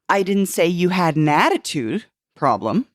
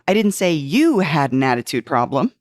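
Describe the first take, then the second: First: The stress is on the word attitude. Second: The stress is on the word you.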